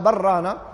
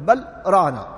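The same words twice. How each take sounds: First: The two words run together as one word. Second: A short break separates the two words. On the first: The speaker calls it wrong. "فإن في هذه الحالة كأنها كلمة واحدة" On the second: The speaker calls it right. "لكنهم يفصلون يقولون بل ران"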